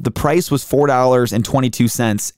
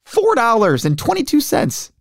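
First: Said in the usual way. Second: High mock-delighted price; sarcastic amazement. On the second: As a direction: gush sarcastically over the price. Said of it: "I was like".

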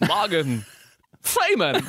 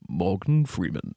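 First: High, halting, odd double impression; Christopher Walken as Morgan Freeman. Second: Low, slow, measured actor impression; Morgan Freeman. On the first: Asked for Walken pretending to be Freeman, halting high-pitched impression. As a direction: split the name and leap up on the second word. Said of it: "now do Christopher Walken pretending to be Morgan Freeman". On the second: Self-declared master of bad impersonation says the name, slow low Freeman. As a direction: drop the pitch and stretch out the name. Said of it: "Morgan Freeman if you just say his name".

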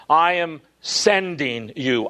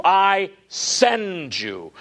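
First: Said in the usual way. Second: Slow, deliberate rendering. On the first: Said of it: "and he says". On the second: Shown as a demonstration. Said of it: "The word send in the Greek".

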